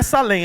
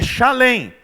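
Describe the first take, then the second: First: The name begins with a plain s sound. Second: The name begins with an sh sound. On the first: The speaker calls it wrong. "a pronúncia não é Salém" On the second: The speaker calls it right. "é Shalem"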